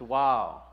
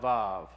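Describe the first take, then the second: First: The word begins with a W sound. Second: The word begins with a V sound. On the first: This is the classical Hebrew form. "In classical Hebrew, it would be a W because it's Wow" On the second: This is the modern Hebrew form. "not Vav"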